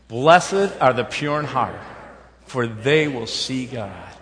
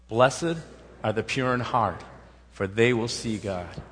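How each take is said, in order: First: It is said louder with more vigor. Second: It is said at a calm, ordinary energy. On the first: "Let's say it with more vigor and vim" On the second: "Let's say it together"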